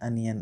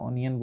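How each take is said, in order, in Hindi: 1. पहला स्वर 'uh' जैसा सुनाई देता है। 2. पहला स्वर 'oh' जैसा सुनाई देता है। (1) "ओनियन को बोलते हैं अनियन" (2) "हम हमेशा ओनियन बोलते हैं"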